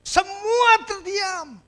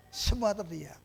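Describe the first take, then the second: First: Drawn-out, high and heavy; slow dramatic pause. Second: Hushed repeat. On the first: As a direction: stretch it out for drama. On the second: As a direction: drop "Semua terdiam" to a hush. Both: Shown as a demonstration.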